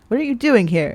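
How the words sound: It is said in an accusing tone.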